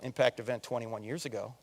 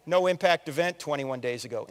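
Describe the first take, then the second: First: "Impact event" said lower and much softer; quiet emphasis. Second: Said in the usual way. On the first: Shown as a demonstration. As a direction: drop the voice to let "Impact event twenty-one years ago" land.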